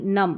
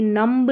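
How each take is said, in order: First: नम stopping on m; silent b. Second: नम्ब with final b sounded; wrong pronunciation. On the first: Teacher giving correct form, नम with silent b. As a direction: leave the b off नम. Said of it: "बी silent रहता है". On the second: Teacher showing the error, b sounded in नम्ब. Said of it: "नम्ब नहीं". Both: Shown as a demonstration.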